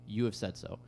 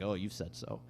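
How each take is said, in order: First: It is said as a sincere confirmation. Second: It is said in a sarcastic tone.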